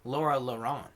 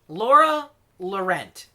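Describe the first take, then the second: First: Laurent is said with a French pronunciation. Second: Laurent is said like English 'lament'. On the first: "if that's like a French name, it could be" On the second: "I have always pronounced it that way, like lament"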